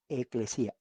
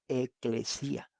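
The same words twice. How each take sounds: First: "Eclesia" said at normal speed, settling down at the end; "Eclesia" spoken once more, plainly and with a falling close; confirming pronunciation. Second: "eclesia" drawn out slowly, each syllable clear, rising at the end; "eclesia" stretched slow and careful with a lift at the end; careful pronunciation. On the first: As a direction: repeat "Eclesia" firmly, like giving the answer. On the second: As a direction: spell out "eclesia" slowly, e-cle-si-a, ending up like a question. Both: Shown as a demonstration.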